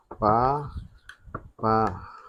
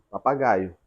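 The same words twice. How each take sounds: First: "papagaio" very slowly split as pa... pa... gai... o; low, slow teacher's breakdown of "papagaio"; syllable by syllable. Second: Said in the usual way. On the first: Shown as a demonstration. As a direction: pause after each syllable of "papagaio". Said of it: "Separação silábica da palavra". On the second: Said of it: "Vamos separar silabicamente?".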